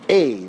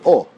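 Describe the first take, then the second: First: The vowel is said like an 'ei' sound. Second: The vowel is said as plain 'o'. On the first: "much more like a tsere type sound" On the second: This is the Israeli pronunciation. "Israelis don't say o, they say o"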